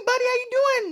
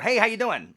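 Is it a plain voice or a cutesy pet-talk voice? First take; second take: cutesy; plain. First: It is said in a cutesy pet-talk voice. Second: It is said in a plain, flat voice.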